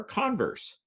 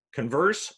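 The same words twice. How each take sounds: First: "converse" as CON-verse; first-syllable stress. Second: "Converse" as con-VERSE; second-syllable stress. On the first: Lecturer offering the other reading, front-stressed "converse". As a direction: stress the start of "converse", as the noun. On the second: Lecturer quizzing on heteronyms, end-stressed "Converse". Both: Shown as a demonstration. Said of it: "where you put the emphasis".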